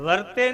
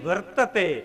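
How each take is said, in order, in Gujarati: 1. આ શબ્દ બે અક્ષરમાં બોલાય છે. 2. આ શબ્દ ત્રણ અક્ષરમાં બોલાય છે. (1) "આપણે સમય વર્તે સાવધાન બોલી, વર્તે નહીં"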